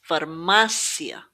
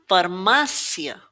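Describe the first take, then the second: Both takes have the same delivery.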